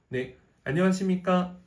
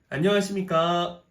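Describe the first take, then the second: First: It is light and tossed off casually. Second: It is drawn out and sounds forced.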